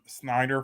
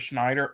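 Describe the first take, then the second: First: The name begins with a plain 'sn' sound. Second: The name begins with an 'shn' sound. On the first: The speaker calls it right. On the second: The speaker calls it wrong.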